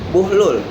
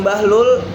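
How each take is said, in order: First: The first vowel is a 'u' sound. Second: The first vowel is an 'a' sound. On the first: The speaker calls it right. "yaitu buhlul yang artinya mulia" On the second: The speaker calls it wrong. "bukan bahlul yang tepat"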